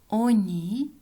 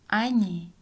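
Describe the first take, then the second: First: The first vowel sounds like o. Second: The first vowel sounds like a. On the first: This is how it is written. "Пишем" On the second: This is how it is actually said. "произносим"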